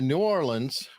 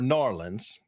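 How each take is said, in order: First: Each syllable of the name is said separately. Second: The syllables are run together into one short word.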